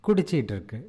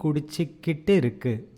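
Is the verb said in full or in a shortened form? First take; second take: shortened; full. First: The verb is said quickly with a syllable dropped. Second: Every syllable of the verb is pronounced fully.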